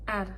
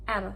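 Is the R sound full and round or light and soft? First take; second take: light; light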